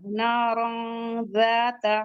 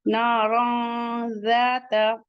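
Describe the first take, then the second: First: नारन ज़ाता with the alif after z held; alif read long. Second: नारन ज़ाता slowly, with the nasal n hidden into z; nasal hiding. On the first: Teacher repeats the phrase, now holding the alif. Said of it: "जाल के बाद का अलिफ भी पढ़ा जाएगा". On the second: Teacher demonstrates ikhfa in नारन ज़ाता. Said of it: "इख्फा करेंगे". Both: Shown as a demonstration.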